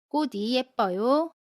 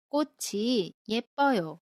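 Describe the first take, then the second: First: The final consonant is carried over as d. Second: The final consonant is carried over as ch. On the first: The speaker calls it wrong. "아닙니다" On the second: The speaker calls it right. "로 발음합니다"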